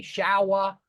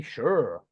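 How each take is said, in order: First: "shower" drawn out in two clear syllables; own-area pronunciation. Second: "sure" as one long syllable for shower, r-coloured; Irish pronunciation. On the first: Teacher showing his area's word, "shower" in two syllables. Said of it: "in my area, we say". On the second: Teacher showing the Irish version, "sure" as one-syllable shower. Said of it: "there they say sure". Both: Shown as a demonstration.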